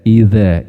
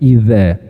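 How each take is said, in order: No difference in how they are said.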